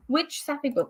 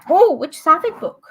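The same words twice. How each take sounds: First: Said in the usual way. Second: Higher, louder reading of the question; excited question. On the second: Real, not acted. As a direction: perk up at the chat question.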